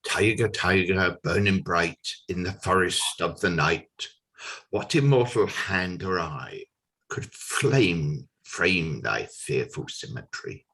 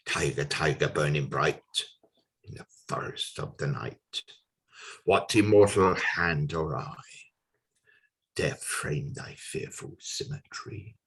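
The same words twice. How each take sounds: First: Measured dramatic verse, falling at the close; poem recitation. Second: Low, soft verse sinking towards a whisper; lower, quieter recital with lingering pauses; hushed poem recitation. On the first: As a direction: declaim the opening verse at full voice. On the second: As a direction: bring the closing verse down to a hush. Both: Acted.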